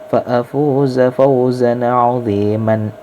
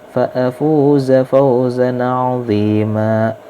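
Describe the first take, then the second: First: The last word ends with an 'an' sound. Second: The last word ends in a long 'a' vowel. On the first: The reading continues into the next word. "Kalau dilanjutin sebenarnya gini" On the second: The reading stops at this word. "diwaqafkan maka dia 'azima"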